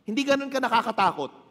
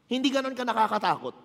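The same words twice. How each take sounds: The two takes are said the same way.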